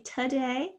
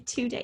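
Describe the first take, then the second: First: TODAY as tuh-day; today starting on a short uh; schwa in today. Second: TODAY as too-day; today starting on a clear oo; full-vowel today. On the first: Teacher showing how some people say today, as tuh-day. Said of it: "Some people say today". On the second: Teacher showing how others say today, as too-day. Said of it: "some people say today". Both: Shown as a demonstration.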